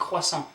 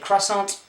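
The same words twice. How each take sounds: First: The final t is silent. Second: The final t is sounded. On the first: The speaker calls it right. "but you're saying croissant" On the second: The speaker calls it wrong. "You don't say croissant"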